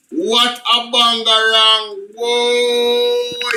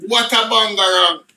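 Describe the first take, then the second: First: Bangarang stretched slow, savoring it; drawn-out exclamation. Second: Said in the usual way. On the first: Shown as a demonstration. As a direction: let bangarang linger long and slow. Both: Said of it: "repeated slower".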